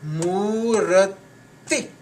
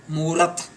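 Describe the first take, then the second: First: Murati very slow, long oo and separate "ti"; final I sounded. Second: Murat ending on t, no i; final I missing. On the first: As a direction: stretch Murati out, ending on a clear i. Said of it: "There is a I sound is there". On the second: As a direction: stop Murat dead at the t. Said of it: "this I sound is not there". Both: Shown as a demonstration.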